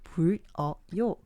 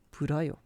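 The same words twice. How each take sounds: First: Each letter is sounded out slowly and separately. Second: The sounds run together smoothly into the vowel. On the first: The speaker calls it wrong. "Só se você vai falar letra por letra" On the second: The speaker calls it right. "Mas é puroyo"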